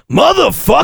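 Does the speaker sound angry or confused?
angry. The word is said in an angry, irritated tone. Someone has made the speaker annoyed. "when they piss You off"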